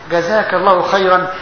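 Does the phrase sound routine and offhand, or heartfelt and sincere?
sincere. It is said slowly and earnestly, with real feeling. The thanks is a genuine prayer for the giver. The speaker calls it right. "لابد ان تعني ما تقول"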